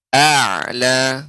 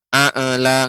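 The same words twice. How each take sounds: First: The ain sound is held smoothly and connected. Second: The ain sound bounces and is cut short. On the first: The speaker calls it right. "yang benar a'la" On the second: The speaker calls it wrong. "nggak boleh"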